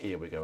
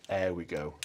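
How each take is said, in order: First: "here we go" with a clear h and the vowel of "here"; wrong reading. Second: "air we go" with no h, "air" rhyming with "there"; right reading. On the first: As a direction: say "here" as in "here and there". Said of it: "it's not "here we go" at all, it's "air". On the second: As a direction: drop the h and open the vowel to "air". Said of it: "it's "air." As in". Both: Shown as a demonstration.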